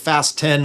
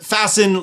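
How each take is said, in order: First: The t is sounded, like fast plus ten. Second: The t is silent, like the word fasten. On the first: The speaker calls it wrong. "I call them the Fast ten" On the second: The speaker calls it right. "apparently I've said it wrong in the past"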